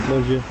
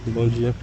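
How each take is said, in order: The two takes are said the same way.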